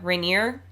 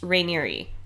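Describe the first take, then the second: First: The name ends without a final 'ee' sound. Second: The name ends with a final 'ee' sound. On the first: The speaker calls it wrong. "we had said that Keith's last name was" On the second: The speaker calls it right. "really it's supposed to be called uh, pronounced"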